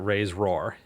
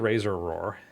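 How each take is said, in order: First: It is said as raise roar, dropping the error vowel. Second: It is said as razor roar, with razor first. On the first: "I'm not going to pronounce it raise roar" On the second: "It could be razor roar, um, but no"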